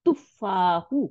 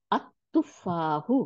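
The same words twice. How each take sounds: First: Said in the usual way. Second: আত তুফাহু read very slowly with the article joined; slow model reading. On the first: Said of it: "দিয়ে আত". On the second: Shown as a demonstration. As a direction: drawl out আত তুফাহু for the class to repeat. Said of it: "হামদুল ওয়াসলের উপরে জবর দিবেন".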